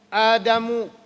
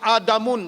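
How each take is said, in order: First: The name ends in a plain vowel sound. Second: The name ends with an added n sound. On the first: The speaker calls it right. "ada yang satu baris" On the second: The speaker calls it wrong. "Dia tak boleh terima Adamun, tak boleh"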